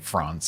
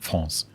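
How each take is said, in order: First: It has an English vowel and English R. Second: It has a French vowel and French R. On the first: "we pronounce it in an English fashion" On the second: "and not France. We change the vowel and we change the R"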